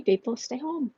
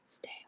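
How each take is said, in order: First: Said in the usual way. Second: Very soft, breathy whisper; whispered plea. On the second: Real, not acted. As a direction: repeat the plea under your breath. Repeats plea under breath.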